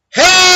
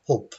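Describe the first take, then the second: First: HELP yelled very high on a big E; emphasized E. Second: HELP squashed short, almost no E; unstressed, vowel removed. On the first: Teacher showing real stress, HELP shouted high with strong E. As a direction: scream HELP, blasting the vowel. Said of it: "I would emphasize the E". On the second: Teacher showing unstressed syllable, HELP with vowel taken out. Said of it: "we take out the vowel". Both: Shown as a demonstration.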